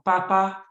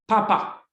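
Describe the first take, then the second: First: Said in the usual way. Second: « Papa » lu plus haut et plus fort, en détachant bien les deux syllabes; présenter « Papa » comme le mot d'exemple au tableau; exemple lu à voix haute. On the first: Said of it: "on a vu mettre A derrière". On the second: Shown as a demonstration. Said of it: "nous avons un exemple là". (« Papa » prononcé haut et fort, pa-pa bien détaché)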